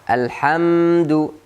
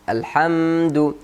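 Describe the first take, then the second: Both takes have the same delivery.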